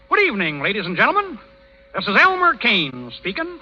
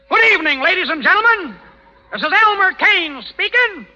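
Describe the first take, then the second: First: It is said quietly. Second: It is said loudly.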